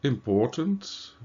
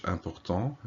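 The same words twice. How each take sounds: First: Said in the usual way. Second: "important" said as French, nasal vowels, silent final t; French pronunciation. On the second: Shown as a demonstration. Teacher giving the French translation, French pronunciation. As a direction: say "important" the French way, stress on the end. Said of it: "in French".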